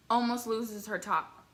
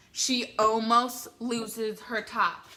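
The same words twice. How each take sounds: First: ALMOST stressed more evenly at normal volume; slow, evenly weighted echo with ALMOST stressed; measured repeat. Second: ALMOST stretched out slowly and hit louder; slow, punched emphasis on ALMOST; emphatic reveal. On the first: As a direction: repeat it slowly, leaning lightly on ALMOST. Repeats it for effect. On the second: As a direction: draw out "almost loses her top", punching ALMOST. Retelling a shocking stage moment. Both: Real, not acted.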